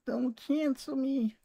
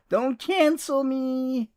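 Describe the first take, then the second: First: High, slow and much softer; pleading again, almost under the breath; soft mock plea. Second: High, slow mock whine; mock plea. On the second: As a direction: stretch it out high like a fake plea. Jokingly begs chat after joke.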